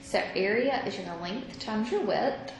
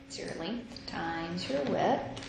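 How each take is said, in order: First: Said in the usual way. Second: Slowed down, each word laid out; slow emphatic repeat. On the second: Shown as a demonstration. Teacher to students restating the area rule, slow and deliberate. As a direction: repeat it slowly so it sinks in.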